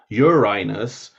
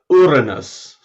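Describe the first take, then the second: First: It is said to sound like 'urine us'. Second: It is said to sound like no rude words. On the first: It refers to a rude bodily substance. The speaker calls it wrong. "in which case you're talking about something rude" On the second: It is the only polite way to say it. The speaker calls it right. "The only really feasible way of saying it that isn't rude"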